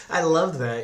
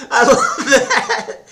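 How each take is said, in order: First: Said in the usual way. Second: Squealing with laughter, slowed; delighted laugh through the words; high laughing gush. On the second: Real, not acted.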